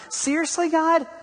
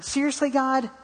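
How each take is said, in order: First: Exasperated at God. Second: High, incredulous "Seriously, God?"; exasperated at God. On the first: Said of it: "I mean, seriously?". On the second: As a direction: ask "Seriously, God?" pitched high in disbelief. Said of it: "sitting in the car thinking". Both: Retold or imitated.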